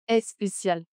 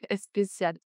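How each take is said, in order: No difference in how they are said.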